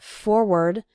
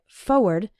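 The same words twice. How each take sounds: First: The first r sound is clearly pronounced. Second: The first r sound is left out. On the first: "some people pronounce it forward" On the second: "when speaking fast, we sometimes say it like forward, as if there wasn't that first R"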